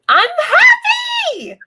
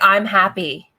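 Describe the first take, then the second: First: It is said with bright, genuine joy. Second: It is said flatly, without real feeling.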